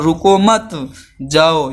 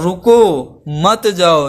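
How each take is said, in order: First: "रुको मत" rising together, pause, then "जाओ"; sending someone off. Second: Stretched, stressed "रुको", break, then "मत जाओ"; stopping someone. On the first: Teacher showing the comma that sends someone away, pause after "मत". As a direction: run "रुको मत" as one unit, drop "जाओ" after a break. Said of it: "यानी कि मैं भेज रहा हूँ". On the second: Teacher showing the sentence that stops someone, pause after "रुको". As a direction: hit "रुको" and hold it, then "मत जाओ" as one unit. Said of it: "यानी मैं रोक रहा हूँ". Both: Shown as a demonstration.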